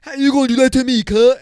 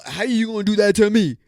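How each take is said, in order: First: Much higher, louder, fast mock outrage; mock outraged whine. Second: Whiny mock girl voice, higher; mock whiny complaint. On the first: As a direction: squeal it like an offended date, fast. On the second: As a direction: mimic an offended date, higher. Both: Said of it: "the girls that talk like this".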